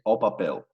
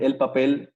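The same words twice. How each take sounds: First: "papel" ending in an -eu glide; Portuguese pronunciation. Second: Said in the usual way. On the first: Shown as a demonstration. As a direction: say "papel" as pa-PEU, Portuguese style. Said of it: "si va a decir el papel". ("papel" a la portuguesa, terminado en "-éu") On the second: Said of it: "es o papel".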